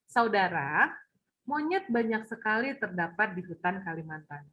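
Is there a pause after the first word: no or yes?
yes. The first word is stressed, then a pause follows. "penekanannya ada saudara"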